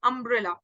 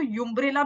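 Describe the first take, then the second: First: The word begins with a short 'uh' vowel. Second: The word begins with a 'yoo' sound. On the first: The speaker calls it right. "अ से शुरू हो रहा है" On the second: The speaker calls it wrong. "यूम्ब्रेला भी नहीं बोलते हम इसको"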